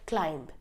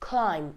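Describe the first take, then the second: First: The final B is pronounced. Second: The final B is not pronounced. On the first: The speaker calls it wrong. "it's not climb" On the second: The speaker calls it right. "the B will be silent"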